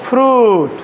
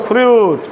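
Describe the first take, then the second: No difference in how they are said.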